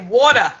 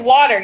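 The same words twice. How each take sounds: First: It is said in a New York accent. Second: It is said in a general American accent.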